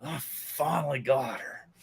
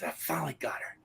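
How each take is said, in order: First: Slow, drawn-out soft triumph; proud, savoring gloat. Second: Hushed, quick private triumph; proud gloating whisper. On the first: Boy proud after beating girl, slow savoring gloat. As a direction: stretch it out, relishing the win. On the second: Boy proud after beating girl, gloating whisper. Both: Acted. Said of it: "He's proud of me".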